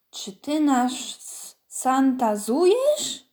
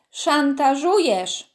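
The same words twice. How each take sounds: First: Santazujesz said with plain s and z, no sz or ż; mispronounced word. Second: Szantażujesz said clearly with sz and ż; correct pronunciation. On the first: Angry Baśka mangling the word at Kostek. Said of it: "„Mówi się szantażujesz". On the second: Karol correcting Baśka's mistaken word, slowly. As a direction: slowly spell out szantażujesz, sz and ż crisp. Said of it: "poprawił ją szeptem Karol". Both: A narrator's reading.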